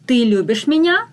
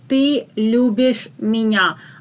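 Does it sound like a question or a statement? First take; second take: question; statement. First: It has question intonation. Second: It has flat statement intonation.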